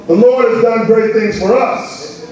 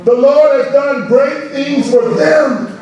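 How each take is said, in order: First: Said in the usual way. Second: Slow, drawn-out reading with weight on Lord; slow scripture read. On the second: Acted. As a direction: savor each word of the verse.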